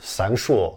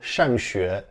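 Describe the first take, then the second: First: The word is said with Chongqing dialect tones. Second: The word is said with standard Mandarin tones. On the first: "可能很多当地人会跟你说上学" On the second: "比如说要说上学"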